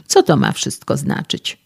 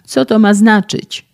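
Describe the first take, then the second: First: Only a mildly raised yell; a lightly voiced outburst at the door; mock yell. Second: Loud, high injured yell; screaming in pain. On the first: Young man confronts the physicist, mild mock yell. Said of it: "wrzasnął". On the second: Injured young man screams at the physicist opening the door, loud high yell. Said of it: "darł się w niebogłosy". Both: A narrator's reading.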